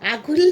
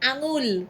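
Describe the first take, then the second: First: The middle consonant is a plain g sound. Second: The middle consonant is a nasal ng sound. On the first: The speaker calls it wrong. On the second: The speaker calls it right.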